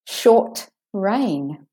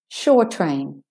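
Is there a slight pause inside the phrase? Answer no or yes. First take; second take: yes; no. First: There is a slight pause after the t. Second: The words run together without a pause. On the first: Rain that lasts a short time. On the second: A train that goes to the shore.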